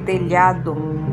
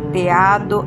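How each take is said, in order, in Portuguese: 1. O som 'lh' do meio é pronunciado. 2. O som 'lh' do meio é omitido. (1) "em lugar de" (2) "Nem tirar letras onde há"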